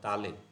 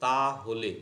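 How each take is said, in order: First: The phrase is contracted into one short word. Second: The phrase is said in full as two words.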